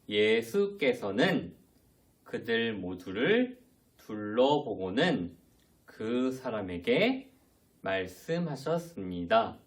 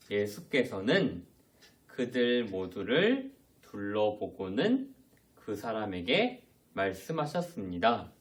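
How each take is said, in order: First: It is read slowly. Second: It is read quickly.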